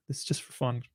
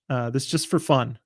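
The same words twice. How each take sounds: First: Softer, under the breath; quiet aside. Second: Said in the usual way. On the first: Shown as a demonstration. Repeats the disclaimer twice.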